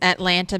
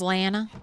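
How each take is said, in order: First: Every syllable is said fully and clearly. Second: It is said quickly with sounds dropped.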